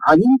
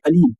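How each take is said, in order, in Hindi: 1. यह तंग गले वाली ऐन की आवाज़ से शुरू होता है। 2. यह सादे हमज़ा (ग्लोटल स्टॉप) से शुरू होता है। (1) "अलीम का मतलब अईन के साथ वाला" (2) "अलीम जो हमज़ा से आता है"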